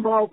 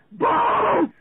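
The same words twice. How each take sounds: First: Said in the usual way. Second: High, loud panicked yell of Balls; screamed demo. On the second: Shown as a demonstration. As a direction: belt it out like falling off a board. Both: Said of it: "like this".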